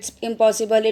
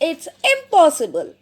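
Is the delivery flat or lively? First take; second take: flat; lively. First: It is said flatly, without much expression. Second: It is said with lively, exclamatory expression. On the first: The speaker calls it wrong. "It was not interesting?" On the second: The speaker calls it right. "now listen again"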